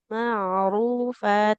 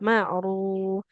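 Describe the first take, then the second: First: The word ends with a long final vowel. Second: The word stops short with no final vowel. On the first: The speaker calls it right. "harus dibaca panjang jadinya dua harokat" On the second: The speaker calls it wrong. "tidak ma'ruf"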